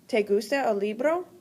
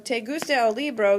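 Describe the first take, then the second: First: It is said with question intonation. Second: It is said with plain statement intonation. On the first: It asks whether the listener likes the book. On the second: You like the book.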